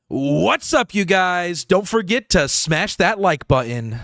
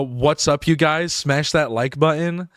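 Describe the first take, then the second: First: Higher, punched-up content-creator intro; YouTuber voice. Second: Said in the usual way. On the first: Shown as a demonstration. Creator practicing content voice at the mic, hyped YouTuber voice. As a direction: hype it up, drawing out the words. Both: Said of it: "like, a YouTuber voice".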